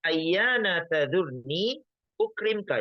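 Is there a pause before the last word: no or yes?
yes. There is a pause before the last word. The speaker calls it right. "cara bacanya juga dipisah ya"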